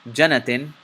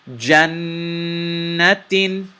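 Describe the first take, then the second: First: The n sound is short, not held. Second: The n sound is held long through the nose. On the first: The speaker calls it wrong. "I didn't say Jannatin. That would be incorrect" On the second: The speaker calls it right. "It's Jannatin"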